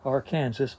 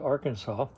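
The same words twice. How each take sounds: First: The word ends with a 'sass' sound. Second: The word ends with a 'saw' sound. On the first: This is how the spelling looks. "spells its name Arkansas" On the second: This is how locals actually say it. "pronounces it Arkansas"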